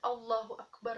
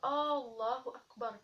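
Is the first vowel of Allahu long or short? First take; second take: short; long. First: The first vowel is short. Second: The first vowel is drawn out long. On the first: Allah is the Greatest. The speaker calls it right. "alif di sini tidak dipanjangkan" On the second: It asks whether Allah is the Greatest. The speaker calls it wrong. "alif yang dipanjangkan di sini merupakan arti daripada uh, kalimat tanya"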